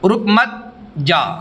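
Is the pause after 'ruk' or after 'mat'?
after mat. There is a pause after 'mat'.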